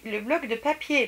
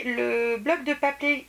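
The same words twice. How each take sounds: First: Said in the usual way. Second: "papier" stumbled as "papé", losing its y sound; drawn-out phrase, slipping to "pa-pé" on "papier"; slip of the tongue. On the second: Real, not acted. Vlogger naming her paper pad purchase, tongue slips on "papier".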